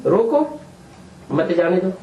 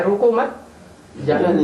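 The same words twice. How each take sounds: First: "रोको" — pause — "मत जाने दो"; pause after roko. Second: "रोको मत" together, then a pause before "जाने दो"; pause after mat. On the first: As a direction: pause right after "रोको", then "मत जाने दो" as one phrase. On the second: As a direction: break after "मत", with "जाने दो" set apart. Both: Shown as a demonstration. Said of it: "बीच में कामा नहीं लगाया".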